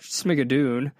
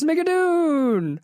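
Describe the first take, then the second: First: The name is said in a flat, plain way. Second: The name is said in an excited, exclaiming way. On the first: The speaker calls it wrong. "It's not Schmigadoon" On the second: The speaker calls it right. "the exclamation mark at the end makes it"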